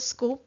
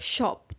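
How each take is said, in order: First: The word begins with an sk sound. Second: The word begins with an sh sound.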